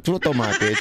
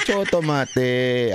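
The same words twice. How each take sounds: First: Said in the usual way. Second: "chotomate" stretched slowly, each syllable drawn out; slow emphatic "chotomate"; slow drawn-out word. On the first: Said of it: "chotomate ko dasay". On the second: Shown as a demonstration.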